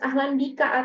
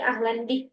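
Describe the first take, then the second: First: The phrase ends with a final vowel. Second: The phrase ends on a consonant, no final vowel. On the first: "nggak usah harus ahlan bika" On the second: "tapi ahlan bik itu udah tahu orang"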